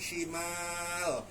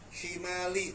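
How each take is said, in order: First: The word ends on a silent final consonant. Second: The word ends on a short i vowel. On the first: The reader stops at the end of the verse. "karena kita berhenti shimal" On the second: The reader keeps reading without stopping. "kalau kita lanjut shimali"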